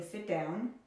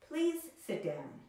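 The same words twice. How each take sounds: First: Said in the usual way. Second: Polite request. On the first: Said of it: "Instead of saying". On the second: Shown as a demonstration. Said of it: "making the imperative sound more polite".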